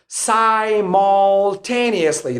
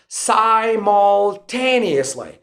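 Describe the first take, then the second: First: It is said in an American accent. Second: The same.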